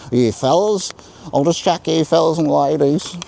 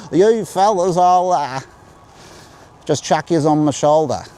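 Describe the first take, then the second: First: General Australian accent, higher and louder. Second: Broad Australian accent, much higher and louder. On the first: Vlogger showing viewers a general Australian accent. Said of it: "In general Australian accent". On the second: Vlogger demoing the old broad Australian accent for viewers. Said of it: "That's called broad Australian". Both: Shown as a demonstration.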